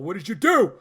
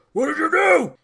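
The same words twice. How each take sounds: First: Louder, building demand as Thor; raised acted cry. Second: High, very loud yell as Thor; full acted shout. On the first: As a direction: call it out, not yet at full shout. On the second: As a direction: shout it out, far above normal voice. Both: Acted quote of stunned Thor.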